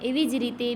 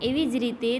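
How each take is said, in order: No difference in how they are said.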